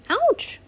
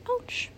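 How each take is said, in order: First: Sharp, high yelp; cry of pain. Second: Put-on high but softer, "Ouch." echoed for a child; soft repeated ouch. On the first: Acted. Lacey tripping and scraping her knee, high yelp. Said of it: "Lacey cried". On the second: Mother repeating the cry to her child, softly high. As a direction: quietly echo the yelp "Ouch." for the listener. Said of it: "She said".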